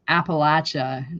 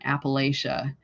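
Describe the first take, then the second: First: It uses the local regional pronunciation. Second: It uses the Florida-style pronunciation. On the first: This is how people here say it. The speaker calls it right. "it's Appalachia" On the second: This is how outsiders from Florida say it. The speaker calls it wrong. "not Appalachia, because Florida, we used to say Appalachia"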